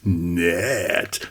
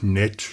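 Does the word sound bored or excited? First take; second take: excited; bored. First: It is said in an eager, admiring tone. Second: It is said in a dull, dismissive tone. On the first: The thing is really attractive. "man kann nett auch ganz anders betonen. So nice" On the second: The thing is only mediocre. "piefigen, schlechten, langweiligen Klang"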